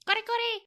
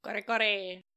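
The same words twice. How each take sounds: First: High, loud mock-Japanese exclamation. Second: Said in the usual way. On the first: Co-host joking the place name sounds Japanese, mock Japanese. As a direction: burst it out as exaggerated cartoon Japanese. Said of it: "It sounds Japanese".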